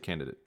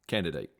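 First: The word is said casually, with sounds reduced. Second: Every sound in the word is carefully pronounced. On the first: The speaker is not focused on the word. "if you asked me like and gave me a sentence and I wasn't focused on the word, I would say" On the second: The speaker is focused on the word. "If I'm reading it, that or I'm trying to actually pronounce it, that's how I'm saying it"

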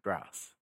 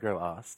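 First: It is said as one syllable with g and r joined. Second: It is split into two syllables with a vowel. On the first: The speaker calls it right. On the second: The speaker calls it wrong.

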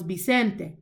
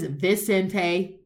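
First: The first sound is like a B. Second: The first sound is an English V. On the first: The speaker calls it right. "In Spanish, digamos Vicente" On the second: The speaker calls it wrong. "No one says Vicente. B"

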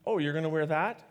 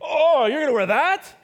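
First: It is asked as a sincere question. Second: It is said in a sarcastic tone.

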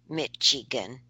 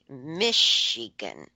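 First: The middle consonant sounds like 'tch' in church. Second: The middle consonant sounds like 'sh' in shoe. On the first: This is how the other person says it. "you tickle me when you say Michigan" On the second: This is how locals say it. "We say Michigan. Like, shh"

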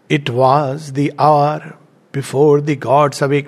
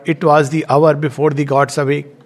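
First: It is read with marked rhythm and stress. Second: It is read flat, like ordinary prose. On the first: "Now the sound is entering" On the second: "we can read it flat, like we read a prose"

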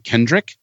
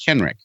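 First: The name has a D sound in the middle. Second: The name has no D sound in the middle. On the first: The speaker calls it wrong. "people still say Kendrick. they want to put the D in there" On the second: The speaker calls it right. "It's just Kenrick"

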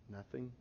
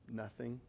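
The two takes are said the same way.

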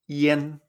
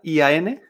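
First: The vowel is pronounced as an 'e'. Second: The vowel is pronounced as an open 'a'. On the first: The speaker calls it right. "en chino se pronuncian yen, es decir, como si fuera una IEN" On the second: The speaker calls it wrong. "tal como suena, tal como lo vemos, así lo pronunciamos en español"

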